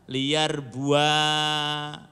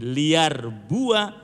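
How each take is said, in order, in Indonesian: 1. Vokal terakhir dibaca panjang. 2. Vokal terakhir dibaca pendek.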